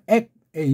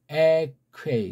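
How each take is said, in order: First: The k closes the first syllable, before a break. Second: The k opens the second syllable, no break. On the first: The speaker calls it wrong. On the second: The speaker calls it right.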